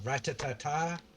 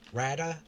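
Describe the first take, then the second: First: The name is said with all its syllables. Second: The name is clipped to a short form. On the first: "I've heard it pronounced different ways" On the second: "half the word is silent?"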